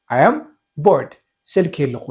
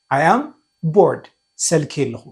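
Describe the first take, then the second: No difference in how they are said.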